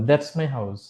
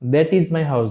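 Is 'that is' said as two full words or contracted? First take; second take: contracted; full. First: 'That is' is shortened to one syllable, 'that's'. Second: 'That is' is said as two full words. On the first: The speaker calls it right. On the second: The speaker calls it wrong. "না"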